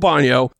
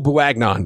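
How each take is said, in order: First: The surname sounds like 'Bo-nee-o'. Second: The surname is read out as it is spelled. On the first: The speaker calls it right. "It's Joel Bonio" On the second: The speaker calls it wrong. "I know that's not how you pronounce it"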